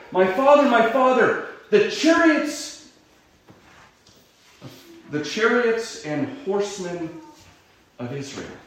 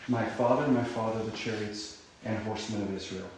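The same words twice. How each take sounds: First: Loud high cry, fading at the end; loud grieving cry that trails off. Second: Soft, lower reflective reading; quiet, thoughtful repetition; quiet musing. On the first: Acted. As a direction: call after him in anguish. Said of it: "he cries out". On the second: Shown as a demonstration. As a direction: ponder the words quietly. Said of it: "what does it mean".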